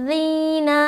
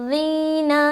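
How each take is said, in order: No difference in how they are said.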